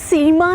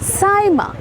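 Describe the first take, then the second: First: The name is said as 'Seema'. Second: The name is said as 'Saaima'. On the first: The speaker calls it wrong. "ना सीमा है" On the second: The speaker calls it right.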